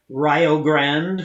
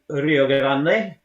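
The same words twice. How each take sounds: First: The word has an unusual, stilted pronunciation. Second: The word has its usual, standard pronunciation. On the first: This is how sailors said it in shanties. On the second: This is the ordinary way to say it.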